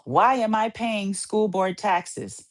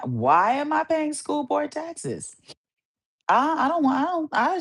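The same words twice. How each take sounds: First: Said in the usual way. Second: Exasperated. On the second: Shown as a demonstration.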